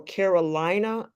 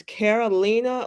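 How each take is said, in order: First: Carolina said like the US state; Carolina, rhyming with "China"; alternative pronunciation. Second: Carolina said as "Caroleena"; Carolina, rhyming with "Lena"; alternative pronunciation. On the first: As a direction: say Carolina with a long "eye" in the third syllable. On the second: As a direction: say Carolina with an "ee" in the third syllable. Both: Shown as a demonstration. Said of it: "I don't know how they're pronouncing her name".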